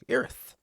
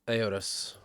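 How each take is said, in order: First: The name is said flat, in his accent. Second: The name is said with varied, non-flat pitch. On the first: This is how the speaker's own accent renders it. "But I got my accent, and I'm just like Erith. nice and flat" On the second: This is the original pronunciation. "That's probably how you really pronounce it"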